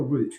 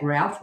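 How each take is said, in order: First: "root" rhyming with "boot"; long oo vowel in "root". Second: "route" pronounced to rhyme with "shout"; route rhyming with out. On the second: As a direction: say "route" with an ow sound, like "rout". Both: Shown as a demonstration. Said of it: "is that route or root".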